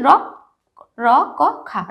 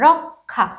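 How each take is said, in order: First: "র ক খা" said piece by piece, with gaps; রক্ষা broken into sounds. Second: রক্ষা as one word, "rok-kha"; রক্ষা joined as rok-kha. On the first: Teacher breaking the word down, র ক খা apart. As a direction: separate each sound, র, ক, খা. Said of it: "উচ্চারণটা কীরকম করছি". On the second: Teacher putting the sounds together, রক্ষা as rok-kha. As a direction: join k and aspirated kh in রক্ষা. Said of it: "যখন রক্ষা উচ্চারণটা কীরকম করছি". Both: Shown as a demonstration.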